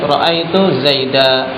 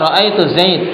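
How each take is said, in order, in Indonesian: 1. Nama itu berakhir dengan 'a' panjang. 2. Nama itu berakhir dengan konsonan mati. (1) "Tanwin pada Zaidan diganti menjadi alif"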